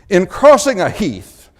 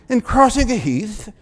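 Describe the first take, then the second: First: It is said in the speaker's ordinary American accent. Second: It is said in a put-on British accent.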